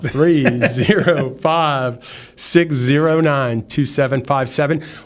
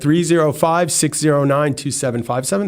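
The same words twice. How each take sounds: First: The number is said slowly, Texas style. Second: The number is said fast, New Yorker style.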